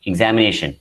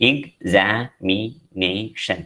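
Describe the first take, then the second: First: Said in the usual way. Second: Examination broken slowly into five separate syllables. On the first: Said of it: "For example". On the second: Shown as a demonstration. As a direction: say examination very slowly, a pause after each syllable. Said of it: "Five syllables are there".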